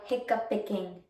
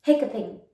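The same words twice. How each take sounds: First: Hiccuping said as hic-cup-pick-ing; Hiccuping fumbled with an extra syllable; mispronounced word. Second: Hiccuping said cleanly as hic-cup-ing; Hiccuping finally said right in three syllables; correct pronunciation. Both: Real, not acted. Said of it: "I can't say that word".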